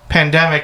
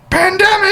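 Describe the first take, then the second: First: The word is said at normal loudness. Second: The word is screamed very loudly. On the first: "he said uh, something like pandemic" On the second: "then he went pandemic. Like he just screamed it"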